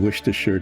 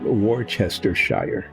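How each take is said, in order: First: The word is said in its usual shortened form. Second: Every written syllable of the word is pronounced.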